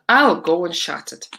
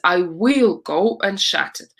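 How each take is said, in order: First: I will is contracted into one syllable. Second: I will is said as two full words. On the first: The speaker calls it right. "when you talk, you don't say I will, you say I'll" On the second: The speaker calls it wrong. "the full version of this is"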